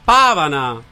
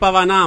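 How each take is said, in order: First: The stress falls before the final syllable. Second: The stress falls on the final syllable. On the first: The speaker calls it right. "un po' gli accenti" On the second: The speaker calls it wrong. "Non si dice Pavanà"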